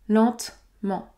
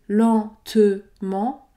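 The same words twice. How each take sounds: First: The middle e is dropped between consonants. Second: The middle e is pronounced as a syllable. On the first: The speaker calls it right. "je ne prononce pas le E au milieu" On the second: The speaker calls it wrong. "Je n'ai pas dit lentement"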